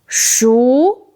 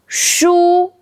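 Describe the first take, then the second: First: The syllable is said with a rising tone. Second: The syllable is said with a high level tone. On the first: It means cooked. "Second tone, 熟 means cooked" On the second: It means books. "first tone, 书 means books"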